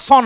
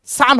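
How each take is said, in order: First: "সন" with a rounded "aw" vowel; wrong pronunciation. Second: "সান" with an open "aa" vowel; correct pronunciation. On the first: Teacher warning against misreading "son", mispronounced "সন" with rounded "o". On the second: Teacher showing how "son" is pronounced, correct "সান" with open "aa". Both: Shown as a demonstration. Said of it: "ওটা ভুল উচ্চারণ".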